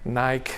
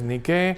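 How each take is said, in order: First: It is said with a North American pronunciation. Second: It is said with the original Greek pronunciation. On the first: "Pronunciado en norteamericano" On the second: "es una palabra griega que significa victoria y que es Nike"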